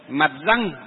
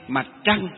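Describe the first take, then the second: First: The second word begins with a plain r sound. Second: The second word begins with a curled tr sound. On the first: This is how people read it long ago. The speaker calls it wrong. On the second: This is how it is read today. The speaker calls it right.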